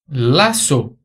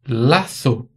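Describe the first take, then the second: First: The z is pronounced as an s sound. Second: The z is pronounced as a th sound. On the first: This is how it is said in Latin America. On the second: This is how it is said in Spain.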